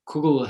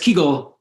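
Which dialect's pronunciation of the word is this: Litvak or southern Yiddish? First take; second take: Litvak; southern Yiddish. First: It is said in the Lithuanian Yiddish pronunciation. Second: It is said in the southern Yiddish pronunciation. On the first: "traditionally been the pronunciation of the word among Litvaks" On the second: "the domain of all of southern Yiddish"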